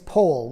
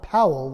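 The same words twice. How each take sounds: First: The first vowel sounds like the one in whole. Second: The first vowel sounds like the one in owl. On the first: The speaker calls it right. "the correct pronunciation of his name is Powell, like in whole" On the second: The speaker calls it wrong. "not Powell, like in owl"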